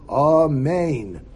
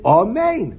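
First: The word is lengthened a little bit. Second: The word is said at normal length. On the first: "You're allowed to be marich a little bit" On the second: "You're supposed to say, Amen"

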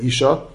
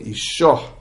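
First: The word ends without an audible h. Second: The word ends with an audible h. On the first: A woman. "It's the word isha, which is a woman" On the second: Her husband. "isha with the mapike"

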